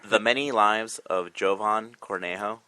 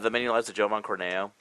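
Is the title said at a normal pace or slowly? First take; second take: slowly; normal. First: The title is said more slowly. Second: The title is said at normal speed.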